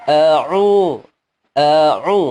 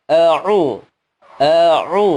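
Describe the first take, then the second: The two takes are said the same way.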